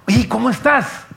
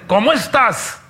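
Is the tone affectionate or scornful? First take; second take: affectionate; scornful. First: It is said warmly, with affection. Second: It is said scornfully, with suspicion.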